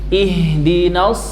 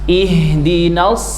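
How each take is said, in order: The two takes are said the same way.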